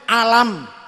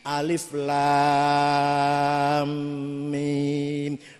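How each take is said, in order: First: The letters are merged into one short word. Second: Each letter name is said separately and lengthened. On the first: The speaker calls it wrong. "kula dhewe macane alam" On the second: The speaker calls it right. "alif lam mim mad lazim kilmi musaqqal"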